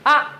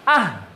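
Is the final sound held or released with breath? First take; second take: held; released. First: The sound is cut off and held. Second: The sound is released with a breath. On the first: "Ini tahan" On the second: "Coba ini lepas"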